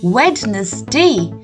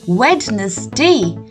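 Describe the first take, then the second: First: Every letter is sounded, as it is spelled. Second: Every letter is sounded, as it is spelled.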